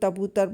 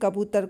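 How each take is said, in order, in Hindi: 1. शब्द t ध्वनि से शुरू होता है। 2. शब्द k ध्वनि से शुरू होता है। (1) "तबूतर बोलना" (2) "कबूतर को"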